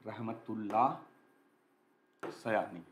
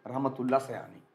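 First: Low, slow "Rahmatullah ... Sayani" with a long gap between words; slow dictation. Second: Said in the usual way. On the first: Shown as a demonstration. Teacher dictating the answer's name to students, slow and broken up. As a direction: spell out "Rahmatullah ... Sayani" word by word, softly. Repeats name slowly while writing.

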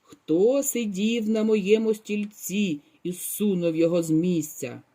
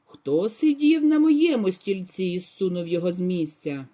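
First: Lightly voiced gruff bear; frightening roar. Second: A hint of a gruff mother bear; lightly voiced mama bear; not so loud roar. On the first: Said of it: "заревів страшним голосом". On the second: Mama bear asks about her moved chair, lightly gruff. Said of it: "заревла не так голосно". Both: A narrator's reading.

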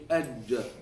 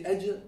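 First: Slow "aj" with the J further back; backed jeem. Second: "aj" with the J too far forward; too-fronted jeem. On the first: Shown as a demonstration. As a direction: pull the tongue back and hold "aj". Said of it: "Take it further to the back". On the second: Retold or imitated. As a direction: copy the student's fronted "aj". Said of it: "you're a bit too much here".

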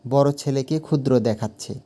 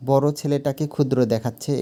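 First: Said in the usual way. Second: বড় at the start of বড় ছেলেটাকে ক্ষুদ্র দেখাচ্ছে lifted and pressed; sentence stress on বড়. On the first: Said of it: "বড় শব্দের ওপরে". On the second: Shown as a demonstration. Teacher showing sentence stress at the start, pressing বড়. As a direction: open the sentence by leaning hard on বড়. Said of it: "বাক্যের শুরুতে বড় শব্দের ওপরে".

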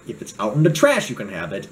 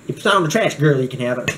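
First: Said in the usual way. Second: Half-hearted imitation of a Black girl's speech; lightly put-on, sassy Black girl voice; attempted Black girl impression. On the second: Vlogger jokingly refusing viewers, in a mock Black girl voice. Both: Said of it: "I can't even say it like a black girl".

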